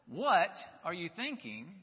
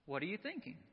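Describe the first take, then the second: First: It sounds harsh and exasperated. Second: It sounds gentle and caring.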